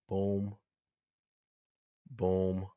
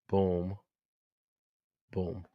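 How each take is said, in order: Both takes have the same delivery.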